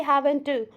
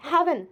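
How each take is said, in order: First: "haven't to", the final T sounded as an extra "tu"; haven't with released T. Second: "Haven't" ending on the N, T dropped; haven't without T. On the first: Teacher showing what they didn't say, "haven't to" with added "tu". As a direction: overdo the T in "haven't to" as a separate syllable. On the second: Teacher showing learners the word, "Haven't" with silent T. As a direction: say "Haven't" with no released "tu" at the end. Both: Shown as a demonstration. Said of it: "I didn't say haven't to".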